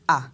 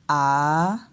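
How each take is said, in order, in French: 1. La voyelle se prononce sur un ton bas. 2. La voyelle baisse puis remonte en hauteur. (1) "le ton bas ... on va descendre avec l'intonation" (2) "le ton montant ... on descend et après on monte"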